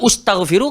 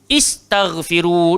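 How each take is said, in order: First: The word begins with a 'u' vowel. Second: The word begins with an 'i' vowel. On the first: The speaker calls it wrong. "kita tak baca ustaghfiru" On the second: The speaker calls it right. "Kita baca istaghfiru"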